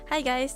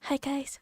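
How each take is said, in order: First: It is a bit louder, clearer, and calm. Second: It is very quiet with very low energy. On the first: The speaker has a little more privacy but still holds back. "a little bit louder, but not like a dying introverted sound" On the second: The speaker is trying not to be heard by others nearby. "very like um the low energy, I would say. Introvert, dying introverted sound"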